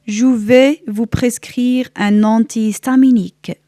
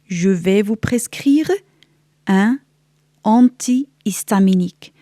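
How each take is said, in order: First: The sentence is spoken fast, at conversational speed. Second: The sentence is spoken slowly and carefully.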